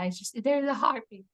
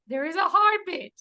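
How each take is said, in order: First: Said in the usual way. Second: Higher and a bit louder, bursting with joy; repeating the happy news to worried onlookers, beaming; overjoyed. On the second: Retold or imitated. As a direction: let the happy news spill out.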